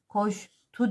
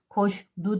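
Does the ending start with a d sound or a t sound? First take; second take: t sound; d sound. First: The ending starts with a hard t sound. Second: The ending starts with a soft d sound. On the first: The speaker calls it right. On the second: The speaker calls it wrong.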